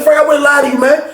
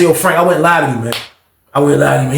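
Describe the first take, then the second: First: Heated plea. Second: Calmed down. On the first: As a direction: still shouting "Frank, I wouldn't lie to you". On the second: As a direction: settle it down: "I wouldn't lie to you". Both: Retold or imitated. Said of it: "I tried to slow it down".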